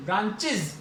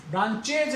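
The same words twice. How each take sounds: First: ब्रांचेज ending in iz, branchiz; ब्रांचेज with a short iz at the end; correct pronunciation. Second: ब्रांचेज with a full e and j, branchej; the wrong reading, ब्रांचेज ending in ej. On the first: Teacher gives the correct reading to the class. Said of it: "इज पे जाके finish करो". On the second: Teacher marks this reading as wrong. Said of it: "ब्रांचेज नहीं". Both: Shown as a demonstration.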